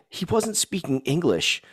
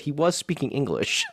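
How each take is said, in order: First: Lightly imitated kid, higher and slow; a small child's slow, higher-pitched verdict, retold; quoted young son. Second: "was" stressed in a retold fatherly correction. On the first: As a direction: say it as a kid reporting a finding. Voices his son's puzzled verdict. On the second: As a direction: lift "was" higher to correct a child. Father correcting his son, retold.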